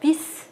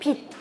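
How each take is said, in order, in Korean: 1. 이 단어는 터뜨려 내는 s 소리로 끝나요. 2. 이 단어는 터뜨리지 않는 t 소리로 끝나요. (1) "비스 안 하시고" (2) "이것도 디귿으로 바뀝니다"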